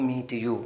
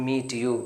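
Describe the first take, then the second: The two takes are said the same way.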